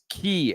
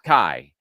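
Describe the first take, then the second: First: The name has an 'ee' vowel sound. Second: The name has an 'eye' vowel sound. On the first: The speaker calls it right. "we think it's Key Ellison" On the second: The speaker calls it wrong. "not Kai"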